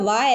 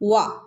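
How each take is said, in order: First: The w sound is made without lip rounding. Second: The w sound is made with rounded lips. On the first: The speaker calls it wrong. "മലയാളത്തിൽ പറയുന്നത് പോലെ വ അല്ല" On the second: The speaker calls it right. "ചുണ്ട് കൂർപ്പിച്ച് പറയണം"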